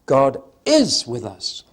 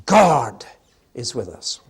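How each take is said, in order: First: Slow, weighty "is" in "God is with us"; "is" carries the line, said slowly; stress on is. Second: God punched louder, the rest dropped; stress on God. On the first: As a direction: press down on the word "is". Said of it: "Meaning number two". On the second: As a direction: lean hard on "God" in "God is with us". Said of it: "Meaning number one". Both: Shown as a demonstration.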